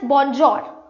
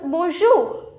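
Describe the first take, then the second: First: It is said with a beginner's non-French pronunciation. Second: It is said with a native-like French pronunciation. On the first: The speaker calls it wrong. "if you are saying it as bonjour, they will not understand it" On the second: The speaker calls it right. "So it becomes bonjour"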